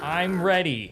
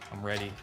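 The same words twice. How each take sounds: First: It is said in a SpongeBob impression. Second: It is said in a normal voice.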